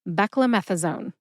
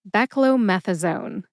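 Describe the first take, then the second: First: It is said quickly, with syllables run together. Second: It is said carefully, with the stress on meth. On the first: "When I say this drug name very quickly or I fail to enunciate" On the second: "Emphasize meth. See if you can hear the emphasis when I say it again"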